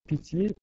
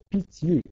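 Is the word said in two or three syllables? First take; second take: two; two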